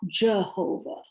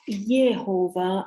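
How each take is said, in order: First: The name begins with a J sound. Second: The name begins with a Y sound. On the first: The speaker calls it wrong. "and not Jehovah" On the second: The speaker calls it right. "is pronounced Yehovah"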